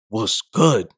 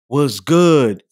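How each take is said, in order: First: It is said in a hostile, challenging tone. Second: It is said in a flirtatious, charming tone.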